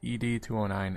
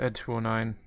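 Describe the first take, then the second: First: ED is spelled out as two separate letters. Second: ED is said as the single word Ed. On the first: The speaker calls it wrong. "they pronounced it E D two oh nine" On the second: The speaker calls it right. "It's Ed two oh nine, you jerks"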